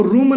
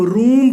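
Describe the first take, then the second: First: रूम with a short clipped oo, like rum; the wrong short रूम. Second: The correct long रूम; right long oo. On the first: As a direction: say रूम as room with a brief vowel. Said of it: "इसको रूम नहीं पढ़ेंगे". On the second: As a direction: stretch the vowel in रूम. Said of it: "हम रूम पढ़ेंगे". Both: Shown as a demonstration.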